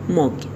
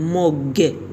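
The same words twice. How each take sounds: First: The final consonant is softly swallowed. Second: The final consonant is clearly released. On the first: The speaker calls it right. "تو گلوتون خفشون میکنین، خیلی آروم بگیرشون" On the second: The speaker calls it wrong. "این شکلی نگین"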